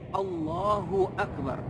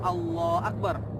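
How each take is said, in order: First: The syllable hu after Allah is clearly heard. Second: The syllable hu after Allah is dropped. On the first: The speaker calls it right. "hu yang ada di Allah itu pun harus di, dibaca dengan jelas" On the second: The speaker calls it wrong. "tidak boleh Allah Akbar tanpa hu"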